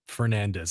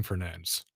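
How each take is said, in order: First: Said in the usual way. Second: Fernandes said the Portuguese way; Portuguese pronunciation. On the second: Real, not acted. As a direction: say Fernandes with a hushed Portuguese "sh" ending. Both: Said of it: "do the whole Portuguese pr".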